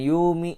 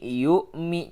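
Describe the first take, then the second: First: The middle flows smoothly without a glottal catch. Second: A glottal catch is pressed in the middle. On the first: The speaker calls it wrong. "jangan yumi" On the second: The speaker calls it right. "hamzah ini punya sifat syiddah. Makanya ada sedikit penekanan"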